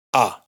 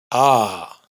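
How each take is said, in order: First: "a" breve y cortada; vocal corta. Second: "a" alargada y sostenida; vocal larga. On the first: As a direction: di la "a" corta y seca. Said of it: "o cortos". (vocal "a" corta) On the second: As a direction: estira la "a" larga. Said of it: "pueden ser largos". (vocal "a" larga) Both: Shown as a demonstration.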